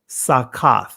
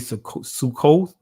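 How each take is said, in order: First: The word is said with 'a' vowels. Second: The word is said with 'oo' and 'o' vowels. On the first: This is the ancient form of the word. "this is the ancient Hebrew pronunciation" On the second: This is how most people say it today. "many would say Sukkoth"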